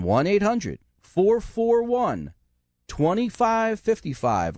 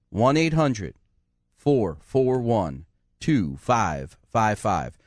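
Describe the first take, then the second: First: The number again, slower and higher; slow repeat. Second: Said in the usual way. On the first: Shown as a demonstration. Radio host repeating the number for callers, slow and clear. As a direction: spell it out slowly for listeners who missed it. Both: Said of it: "I'm gonna tell you again".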